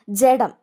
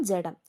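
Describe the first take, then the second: First: ജഡം called out much louder; announced word. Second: Said in the usual way. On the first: Shown as a demonstration. Teacher announcing the word to students, loudly. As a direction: call out ജഡം sharply and loudly. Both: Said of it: "ഏത് ഡായാന്ന് നോക്കണം".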